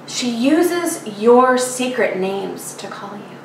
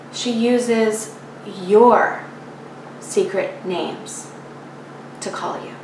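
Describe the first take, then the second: First: Said in the usual way. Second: Slowly, pausing after "your" and "names", fading away on "to call you"; slow, fading repeat. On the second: A narrator's reading. Poet repeats the muse's line, slow and fading on "to call you". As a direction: stretch "your", then let "secret names to call you" sink softly.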